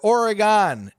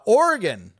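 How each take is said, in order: First: It is pronounced the way locals dislike. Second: It is pronounced the way locals say it.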